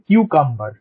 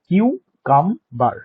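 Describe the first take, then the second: First: The word is said smoothly in one piece. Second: The word is broken into separate syllables.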